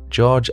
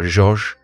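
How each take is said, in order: First: The name is said with an English pronunciation. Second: The name is said with a French pronunciation. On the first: The speaker calls it wrong. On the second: The speaker calls it right.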